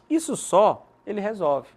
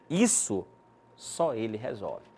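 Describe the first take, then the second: First: There is a pause after 'só'. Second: There is a pause after 'isso'.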